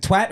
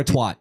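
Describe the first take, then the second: First: "twat" rhyming with cat; short flat A in "twat"; vowel as in cat. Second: "twat" rhyming with swat; vowel as in hot. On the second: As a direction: open AH in "twat", like "twot". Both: Shown as a demonstration. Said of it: "Is it twat or twat?".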